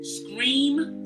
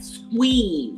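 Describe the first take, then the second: First: The word starts with a clear s-k-r cluster. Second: The word has a w sound replacing the r. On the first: The speaker calls it right. "words that have like scream" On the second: The speaker calls it wrong. "it always comes out like squeam ... like there's a W in it"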